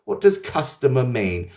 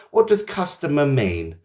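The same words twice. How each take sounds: The two takes are said the same way.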